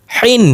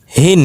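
First: Higher হিন with a tight, pressed হ; pressed throat H. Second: হিন with a light, unpressed হ. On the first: Teacher drilling two H sounds, throat-pressed হিন. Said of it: "চেপে উচ্চারণ করতে হবে গলার মধ্যে". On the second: Teacher drilling two H sounds, light হিন. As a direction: let হিন start on an easy open breath. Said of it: "আর একটা হালকা নরমাল উচ্চারণ". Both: Shown as a demonstration.

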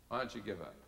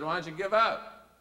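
First: Quieter, falling question; soft repeat. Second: Louder, higher, rising question; leader's challenge. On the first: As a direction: let it drop gently the second time. Same question repeated softly. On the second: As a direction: throw it out as a challenge. Leader's challenge, first take louder. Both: Retold or imitated.

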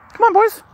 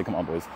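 First: Put-on very high, louder falsetto "Come on, boys."; "Come on, boys." squeaked high as a fake quote; mock taunt. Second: Said in the usual way. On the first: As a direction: jokingly throw in the taunt again, high and mocking. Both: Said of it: "No, she doesn't say".

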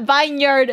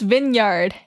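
First: Vineyard as VINE-yard; spelling pronunciation. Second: Vineyard as VIN-yard; correct pronunciation. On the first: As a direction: say vineyard with a long "eye". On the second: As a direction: say vineyard with a short "i". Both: Shown as a demonstration. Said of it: "who decided that vineyard is pronounced vineyard".

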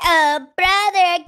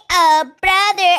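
First: Slow, stretched "Oh, brother."; slow drawn call. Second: Louder dramatic call of "Oh, brother.". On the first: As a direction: draw out "Oh, brother." slowly. Sister calls brother again, drawn. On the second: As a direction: cry out "Oh, brother." for help. Sister calls brother for help. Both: Acted.

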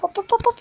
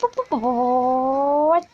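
First: Quick high hops; quick excited hops. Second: Slow stretched-out hops; drawn-out hops. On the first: Gamer cheering his car over bumps, high quick hops. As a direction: chant the hops up high, rapid-fire. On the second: Gamer dragging out hops as the car flies, slow. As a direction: let each hop hang, slowly. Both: Real, not acted. Calling hops while driving.

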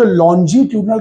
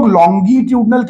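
First: Longitudinal with a soft g, "lon-jee-tudinal"; soft-g pronunciation. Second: Longitudinal with a hard g, "long-gee-tudinal"; hard-g pronunciation. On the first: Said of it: "मुझे longitudinal कहना ज्यादा पसंद है". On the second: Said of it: "but मुझे longitudinal कहना ज्यादा पसंद है". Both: Shown as a demonstration.

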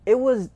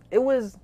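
Both takes have the same delivery.

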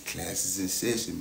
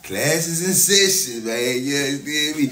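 First: Said in the usual way. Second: Louder, higher, slow proclamation; drawn-out announcement. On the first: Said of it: "quieter repeat". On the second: Acted. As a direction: stretch it out like a hype man. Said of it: "repeats announcement, bigger".

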